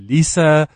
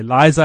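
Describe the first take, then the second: First: The middle consonant is a hissing s sound. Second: The middle consonant is a buzzing z sound. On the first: This is what the phone's voice control understands. "I have to say Lisa. Because apparently they don't say Z's in America" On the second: This is how the speaker naturally says the name. "I can't say Liza"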